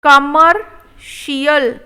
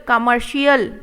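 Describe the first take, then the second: First: Commercial drawn out slowly; slow model take. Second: Said in the usual way. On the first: Shown as a demonstration. Teacher modelling commercial slowly. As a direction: stretch each syllable. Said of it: "slow model take". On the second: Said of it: "normal repeat".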